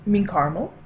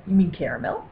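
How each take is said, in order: First: "caramel" said as CAR-mul; two-syllable caramel. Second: "caramel" said as CARE-uh-mel; three-syllable caramel. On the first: Server correcting a coffee order, "caramel" as CAR-mul. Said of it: "the server's always gonna say". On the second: Server correcting a coffee order, "caramel" as CARE-uh-mel. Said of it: "the server's gonna say". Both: Retold or imitated.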